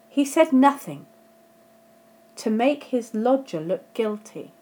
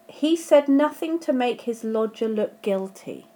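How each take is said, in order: First: The voice pauses clearly after 'nothing'. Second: The voice runs straight on after 'nothing'. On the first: He stayed silent, and his silence made his lodger look guilty. "Let me put the comma in and see if you can hear the difference" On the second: He did not say anything that would make his lodger look guilty. "without a comma, that sentence has quite a different meaning"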